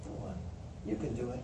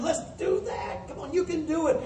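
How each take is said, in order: First: Soft, low encouragement; low-voiced, understated pep talk; quiet attaboy. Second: High-pitched coach urging the team on; pep-talk voice, pitched well up; encouraging coach. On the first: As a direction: drop right down and gently nudge them on. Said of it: "an attaboy". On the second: Acted. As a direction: cheer them on in a raised, coaxing voice. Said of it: "As the coach would to a team".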